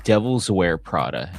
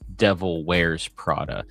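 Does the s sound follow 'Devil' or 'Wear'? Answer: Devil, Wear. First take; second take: Devil; Wear. First: The s sound is attached to Devil. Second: The s sound is attached to Wear. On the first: The speaker calls it wrong. "I say Devil's Wear Prada instead of" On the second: The speaker calls it right. "instead of the Devil Wears Prada"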